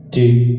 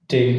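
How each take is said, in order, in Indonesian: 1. Suaranya punya bass yang terdengar. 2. Suaranya sama sekali tidak punya bass. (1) "ada suara bassnya" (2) "nggak ada suara bass sama sekali"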